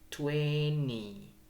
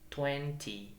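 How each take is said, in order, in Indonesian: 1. Bunyi t setelah n dihilangkan. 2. Bunyi t setelah n diucapkan. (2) "Bisa juga T"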